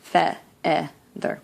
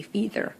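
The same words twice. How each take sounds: First: Feather with a short open e, FEH-ther. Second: Feather said wrongly as FEE-ther with a long ee; mock the mistake feather as fee-ther. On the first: Teacher contrasting vowels for class, short e. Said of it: "Here we do not hear the long E". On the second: Teacher showing students the wrong vowel, long ee. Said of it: "we don't say feather". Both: Shown as a demonstration.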